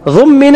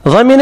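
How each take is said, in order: First: The first vowel is a 'u' sound. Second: The first vowel is an 'a' sound. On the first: An authority makes the person liable. "ضمن يعني من القاضي والحاكم وولي الأمر" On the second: The person himself becomes liable. "ضمن يعني هو"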